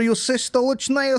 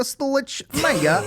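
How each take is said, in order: First: Stolichnaya stretched slow and high; mock-grand Stolichnaya; drawn-out Stolichnaya. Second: Stolichnaya drawn out very slow, high. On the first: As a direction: sing out Stolichnaya slowly, pitched up. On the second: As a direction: linger on each syllable of Stolichnaya. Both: Shown as a demonstration. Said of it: "I don't care".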